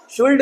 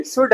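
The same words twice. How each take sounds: First: शुल्ड with L before the d; higher-pitched शुल्ड with the L heard; wrong, L sounded. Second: शुड said as "shud"; शुड, short vowel straight into d; silent L. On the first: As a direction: voice the L, "shuld". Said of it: "L silent चाहिए". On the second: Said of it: "L silent". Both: Shown as a demonstration.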